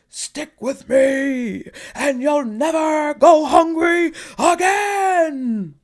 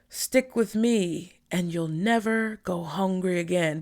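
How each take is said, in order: First: It is said louder and very strongly. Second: It is said at normal, softer volume.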